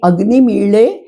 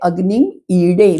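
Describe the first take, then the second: First: The verb has a retroflex ḷ sound. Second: The verb has a retroflex ḍ sound. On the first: "ऋग्वेदामध्ये ड जो असतो, ... त्याला ळ म्हणतात" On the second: "म्हणजे"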